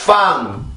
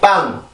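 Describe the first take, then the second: First: It starts with lower lip touching the upper teeth. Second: It starts with a tense sound using both lips. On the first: "영어로 F를 쓰게 되면" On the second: "우리나라 쌍비읍 같은 경우는 빵이라고"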